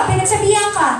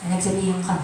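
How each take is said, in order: First: Pinagsabihan ka said high and sharp, falling hard; scolding tone. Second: Pinagsabihan ka said low and much softer, trailing off; soft take. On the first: Preacher voicing a scolding to the congregation, raised and sharp. Preacher contrasts two ways of saying. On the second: Preacher repeating the scolding to the congregation, soft and low. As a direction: drop pinagsabihan ka to a gentle murmur. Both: Shown as a demonstration.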